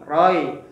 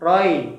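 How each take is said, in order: Both takes have the same delivery.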